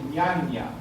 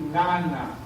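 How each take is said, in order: First: Both nasal sounds are palatal ñ sounds. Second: Both nasal sounds are plain n sounds. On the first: "No decir ñaña" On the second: "ni decir nana"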